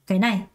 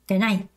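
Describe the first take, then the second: First: The first syllable is light, the second stressed. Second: The same.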